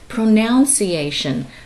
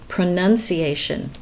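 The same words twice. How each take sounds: First: The second syllable sounds like 'noun'. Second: The second syllable sounds like 'nun'. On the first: The speaker calls it wrong. "A lot of people say pronunciation" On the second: The speaker calls it right. "the word is actually pronunciation"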